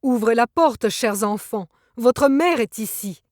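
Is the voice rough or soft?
rough. The voice sounds rough and harsh.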